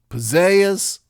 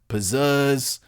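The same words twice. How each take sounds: First: The second vowel is a Southern gliding eh sound. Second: The second vowel has a Philadelphia-style eh sound. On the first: "the Southern diphthonged eh" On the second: "the Philly eh"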